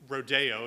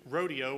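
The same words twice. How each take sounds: First: It is said in a fancier, pretentious way. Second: It is said the plain, everyday way.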